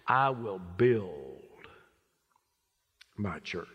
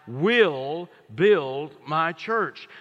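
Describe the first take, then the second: First: The stress falls on the word build. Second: The stress falls on the word will. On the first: The church is still being built, bit by bit. "Maybe he put his inflection here" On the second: The church is permanent and will always exist. "It's a permanent church"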